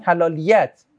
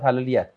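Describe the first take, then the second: First: حلالیت drawn out slowly, each syllable clear; slow stressed word. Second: Said in the usual way. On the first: Shown as a demonstration. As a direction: lean on حلالیت and slow it right down. (تأکید آهسته روی حلالیت)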